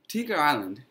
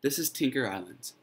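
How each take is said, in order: First: Tinker Island? asked back with a rising tune; puzzled echo. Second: Said in the usual way. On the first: Acted. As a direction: repeat "Tinker Island" as an unsure question. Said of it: "said Stephen". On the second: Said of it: "Dreamlove says".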